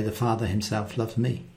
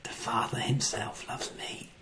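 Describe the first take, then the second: First: "The Father himself loves me." said quietly and softly; softer, quiet reading. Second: "The Father himself loves me." fully whispered. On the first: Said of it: "You can even change it and say". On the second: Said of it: "And you can say". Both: Shown as a demonstration.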